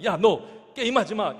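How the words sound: It is said in a harsh, scolding tone.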